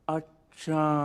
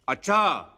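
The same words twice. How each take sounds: First: It sounds thoughtful and drawn out. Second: It sounds angry and loud.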